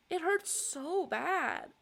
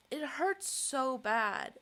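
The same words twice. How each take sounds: First: High, slow, sobbing. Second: Slow, tearful, voice breaking; crying. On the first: Vlogger crying to camera about the hurt, high slow sobbing. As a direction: sob it out slowly. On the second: Vlogger crying to camera over not being believed, tearful. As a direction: cry the words out slowly. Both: Real, not acted. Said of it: "This is a very interesting cry".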